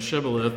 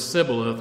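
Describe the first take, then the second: First: The word begins with a sh sound. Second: The word begins with a plain s sound. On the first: The speaker belongs to the group that says sh. "rather than shibboleth" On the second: The speaker belongs to the group that cannot say sh. "because the people of Ephraim apparently didn't pronounce the sh sound. They would say s"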